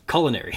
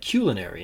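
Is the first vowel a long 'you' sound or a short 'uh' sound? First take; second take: short uh; long you. First: The first vowel is a short 'uh' sound. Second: The first vowel is a long 'you' sound. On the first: "and not" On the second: "I have a proclivity towards the long U sound"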